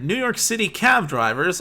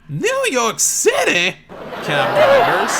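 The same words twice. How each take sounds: First: It is said in his plain voice. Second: It is said in an imitated New York accent.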